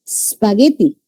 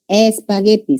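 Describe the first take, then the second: First: "Spaghetti" with no e before the s; wrong pronunciation. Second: "Espagueti" with the added e at the start; correct Spanish form. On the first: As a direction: start "Spaghetti" straight on the sp sound. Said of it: "No podemos pronunciar así". ("Spaghetti" mal pronunciado, sin la e inicial) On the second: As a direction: open "Espagueti" with a clear e. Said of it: "se le agrega la E". ("Espagueti" con la e añadida al inicio) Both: Shown as a demonstration.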